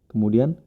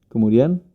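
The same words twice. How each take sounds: No difference in how they are said.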